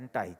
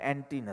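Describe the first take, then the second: First: The word ends with an 'eye' sound. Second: The word ends with an 'ee' sound. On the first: This is the way it is said in America. "એન્ટાઈ છે" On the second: This is the way it is said in India. "અમેરિકામાં એન્ટી નથી"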